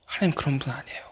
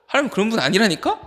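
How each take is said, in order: First: Very soft, near-whispered reassurance; hushed assurance. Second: Higher-pitched, insistent reminder; high insistence. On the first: Preacher assuring the youths about God, hushed voice. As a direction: drop to a hush and reassure them. Gentle repeat after the shouts. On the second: Preacher telling a youth God is not like that, high insistence. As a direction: press the point in a raised pitch. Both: Real, not acted.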